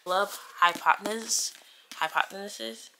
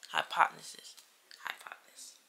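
First: Said in the usual way. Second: Whispering. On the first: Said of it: "repeats title, fading". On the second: Shown as a demonstration. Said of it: "repeats title into whisper".

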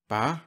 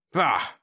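First: "Bah" raised as a question; puzzled echo of BAH. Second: Higher-pitched scoffing outburst. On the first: Whitlow echoing the general's "Bah", puzzled question. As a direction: repeat "Bah" with a questioning lift. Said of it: "reiterated Whitlow". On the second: General rejecting the Secretary's answer, scoffing. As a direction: dismiss it with a scoff. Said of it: "Webb scoffed". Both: A narrator's reading.

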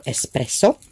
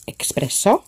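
First: "Espresso" with no k, "ess-presso"; corrected espresso. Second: "Espresso" said with a k sound, "ex-presso"; mispronounced espresso. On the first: Crafter correcting the paint name, "Espresso" as "ess-presso". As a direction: say "Espresso" starting with a plain "es". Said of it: "or Espresso". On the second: Crafter misreading a paint name, "Espresso" as "ex-presso". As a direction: say "Espresso" as "ek-spresso". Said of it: "not Espresso, Espresso". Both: Real, not acted.

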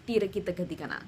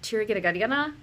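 First: "tiri kita ketika na" with popping Hindi dental consonants; Hindi pronunciation. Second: "tiri kita ketika na" with English-accented consonants. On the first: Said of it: "doesn't pop the same way". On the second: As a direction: say the Hindi syllables with an English accent. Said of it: "with an English accent". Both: Shown as a demonstration.

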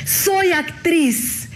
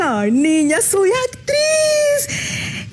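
First: Very slow, proudly drawn-out and higher. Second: Much higher, hugely drawn-out proud cry. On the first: Fresh graduate proudly tells the lady, stretched out. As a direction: savor each word like a proud new graduate. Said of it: "orgullosísima". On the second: The grown pupil proudly tells her teacher, high and stretched. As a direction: stretch it out in proud, squealing triumph. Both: Retold or imitated.

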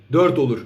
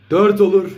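First: Said in the usual way. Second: Louder, rising excitement; excited goal call. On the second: Real, not acted. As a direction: call the chance with a lift.

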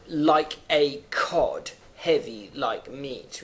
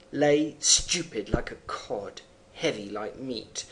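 First: "like a cod" drawn out slowly and heavily; heavy slow rhythm. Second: Measured poem recitation; poem reading. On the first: Shown as a demonstration. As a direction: stretch out "like a cod, heavy like meat" to show the flopping rhythm. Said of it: "notice the rhythm". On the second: Acted. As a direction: read "lay stupid like a cod" in a steady reading voice. Reads poem line.

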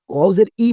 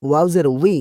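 First: ওয়াও জের ই ending in a bare "i", no w; incorrect pronunciation. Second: ওয়াও জের উই ending in a clear "wi"; correct pronunciation. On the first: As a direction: say ই as a plain vowel without lip-rounding. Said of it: "বলা যাবে না কিন্তু". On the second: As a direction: start উই with a rounded w glide. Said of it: "ওয়াও জের ই বলা যাবে না". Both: Shown as a demonstration.

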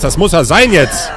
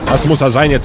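First: Louder excited shout. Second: Said in the usual way. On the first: Real, not acted. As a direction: call it out, thrilled. Repeats, second time shouted.

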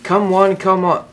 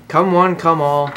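First: Loud carnival barker; announcer call. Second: Slow, loud barker call; slow announcer call. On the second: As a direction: draw out the invitation like a barker. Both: Acted.

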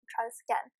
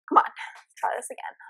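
First: Said in the usual way. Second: Breathed to yourself, no voice; whisper. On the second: Real, not acted. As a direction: whisper the resolve. Repeats retry, then whispers.

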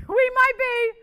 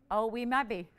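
First: High, loud laughing repeat, slowed. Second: Said in the usual way. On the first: Real, not acted. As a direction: laugh it out at the stalled bid. Laughs at stalled bid.

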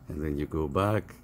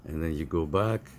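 The two takes are said the same way.

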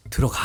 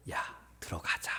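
First: Mock stern command; curt order. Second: Soft, hushed coaxing; gentle persuasion. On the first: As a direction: order him inside abruptly, as a harsh father would. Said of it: "이게 아니에요". (단호하게 명령하듯) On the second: Acted. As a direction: coax a sulking son inside very softly. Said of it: "설득을 해요". (조용히 달래듯이)

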